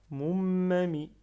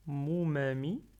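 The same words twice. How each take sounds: First: MOUMAMI with a long, loud M before "ma"; doubled middle M. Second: Said in the usual way. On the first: Shown as a demonstration. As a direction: hold back the middle M of "moumami". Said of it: "j'appuie bien sur la". (m du milieu retenu et appuyé dans « moumami ») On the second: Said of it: "j'enlève shadda".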